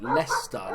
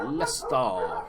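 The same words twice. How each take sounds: First: Said in the usual way. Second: Leicester with a long, stretched ending; drawn-out club name. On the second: Pretend. Player toying with the team's name, drawn-out Leicester. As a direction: stretch out the end of Leicester playfully.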